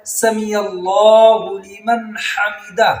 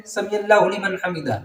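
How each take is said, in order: First: سمیع اللہ لمن حمدہ slow and drawn out; correct recitation. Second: سمیع اللہ لمن حمدہ rushed, vowels short; wrong recitation. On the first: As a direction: lengthen each vowel of سمیع اللہ. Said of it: "تو اس طرح کہنا ہوتا ہے". (صحیح آہستہ ادائیگی) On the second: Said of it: "لوگ کیسے کہتے ہیں". (غلط جلدی ادائیگی) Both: Shown as a demonstration.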